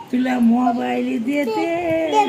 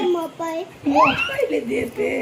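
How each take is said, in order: First: Said in the usual way. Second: Slow, stretched and higher, with a laugh in it; drawn-out singsong. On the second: Real, not acted. Mother repeating her promise to the baby, slow stretched singsong. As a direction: pull the words out long and lilting, smiling.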